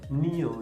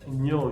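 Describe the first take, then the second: First: The syllable starts with a separate n plus i. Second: The syllable starts with a single blended ñ. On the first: The speaker calls it wrong. "Nio, nio" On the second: The speaker calls it right. "Es ño"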